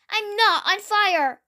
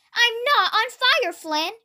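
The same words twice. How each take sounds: First: Higher, mildly protesting cry. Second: High, put-on complaining voice; indignant grumble. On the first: Edward, soaked by water cannons, cries out in protest. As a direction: protest it with a raised pitch. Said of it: "Edward cried out". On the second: Soaked Gordon scolds Flynn, grumbling in high protest. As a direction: grumble in protest, dropping away on the name. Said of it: "Gordon grumbled". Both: A narrator's reading.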